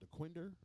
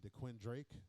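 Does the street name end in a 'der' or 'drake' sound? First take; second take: der; drake. First: The name ends with a short 'der' sound. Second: The name ends with a 'drake' sound. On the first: This is the street's actual name. "it's one called DeQuinder" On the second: This is how some people say it. "some people say DeQuin Drake"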